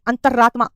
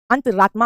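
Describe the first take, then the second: First: अंतरात्मा with a doubled, held r; अंतरात्मा broken after antar, r said twice; wrong doubled r. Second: अंतरात्मा with one light r; अंतरात्मा run smoothly through a single r; correct single r. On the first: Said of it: "दो बार रा लगा दिया". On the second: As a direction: say अंतरात्मा as "antraatmaa". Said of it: "अंतरात्मा होता है". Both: Shown as a demonstration.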